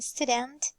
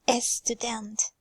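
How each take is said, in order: First: The word begins directly with the s sound. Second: A short vowel is added before the s sound. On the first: The speaker calls it right. "instead of saying student" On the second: The speaker calls it wrong. "We hear Persian people add a before these clusters"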